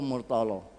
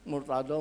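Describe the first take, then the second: First: The last consonant is a plain L sound. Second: The last consonant is an emphatic dhad sound. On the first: It is how local speakers say it. "Saya dan sampean tidak bisa bilang dhad" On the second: It is the fully Arabic pronunciation. "paling fasih melafatkan dhad"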